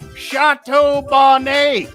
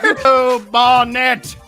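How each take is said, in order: First: It is said with a put-on French accent. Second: It is said with a plain English accent.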